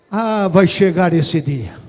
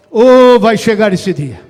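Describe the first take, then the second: First: Slow, low, firmly projected; solemn preacher's promise. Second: Very loud, full-voiced proclamation; booming preacher's promise. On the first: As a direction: hold back before the build, drawing it out. Repete a promessa em crescendo. (promessa solene, lenta e grave) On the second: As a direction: open up and cry it out to the whole church. Repete a promessa, mais forte. (promessa bradada, a plena voz) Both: Real, not acted.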